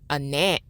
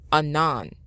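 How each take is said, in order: First: The 'nan' syllable is said on a high pitch. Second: The 'nan' syllable is said on a low pitch. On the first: The speaker calls it wrong. "Instead of a nan" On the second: The speaker calls it right. "Now make the N lower"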